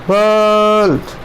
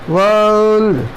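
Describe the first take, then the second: The two takes are said the same way.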